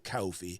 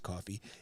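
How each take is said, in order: First: Coffee is said in a New York accent. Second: Coffee is said in a plain accent. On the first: "I still say it with my New York accent every once in a while" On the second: "Otherwise, it's just coffee"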